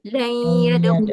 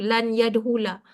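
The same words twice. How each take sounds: First: It is said with Quranic recitation rules applied. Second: It is said plainly, without recitation rules. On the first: This is how it is read when reciting scripture. "kalau kita baca Quran, biasa kita baca" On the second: This is how it is said in ordinary speaking. "kalau kita bercakap tak apa je tak ada tajwid tu"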